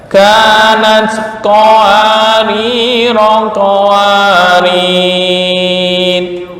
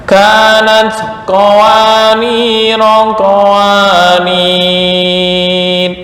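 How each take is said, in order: The two takes are said the same way.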